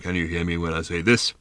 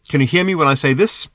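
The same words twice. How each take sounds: First: It is spoken in a very deep voice. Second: It is spoken at an ordinary pitch.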